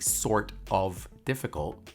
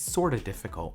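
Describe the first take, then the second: First: Sort of is said as two full words. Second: Sort of is reduced to one word, sorta. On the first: "Instead of saying sort of difficult" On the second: "you say it's sorta"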